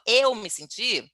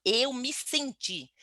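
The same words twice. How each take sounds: First: Said in the usual way. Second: "Eu" leaned on, the phrase drawn out slowly; slow stress on eu. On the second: Shown as a demonstration. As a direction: stretch "Eu me senti" slowly, weight on "Eu". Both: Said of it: "quando eu falo na primeira pessoa".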